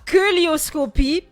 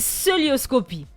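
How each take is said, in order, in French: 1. Le mot commence par un son k. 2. Le mot commence par un son s. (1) "Ce n'est pas que lioscopie" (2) "il nous apporte la bonne prononciation"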